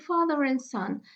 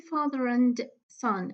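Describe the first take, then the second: First: The D sound in 'and' is dropped. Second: The D sound in 'and' is pronounced. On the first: The speaker calls it right. "I say father and son. The D is elided" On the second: The speaker calls it wrong. "I don't say father and son"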